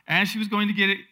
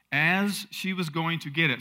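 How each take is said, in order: First: Louder, higher, building reading; emphatic rereading. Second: Said in the usual way. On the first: A narrator's reading. Preacher rereads the verse to the congregation, emphatic. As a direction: reread it with rising energy and volume.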